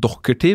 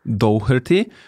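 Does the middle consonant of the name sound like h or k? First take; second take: k; h. First: The middle consonant sounds like a k. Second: The middle consonant is a clear h sound.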